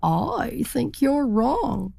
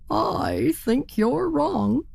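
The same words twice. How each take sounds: First: Slow, higher, drawn-out insistence; stubbornly disagree, taking your time; stubborn turkey. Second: Higher, slow insistence with a hint of worry; stubborn turkey. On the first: Acted. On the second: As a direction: insist but slower and a touch uneasy. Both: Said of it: "said the turkey".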